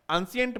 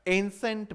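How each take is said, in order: First: एंशिएंट said as "an-si-ent", three syllables; students' mispronunciation. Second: एंसेंट said as "EN-sent", two syllables; correct pronunciation. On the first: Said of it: "बहुत सारे बच्चे इसको क्या बोलते हैं". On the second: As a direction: model the right "ensent" for एंसेंट. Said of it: "क्या बोलना है". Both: Shown as a demonstration.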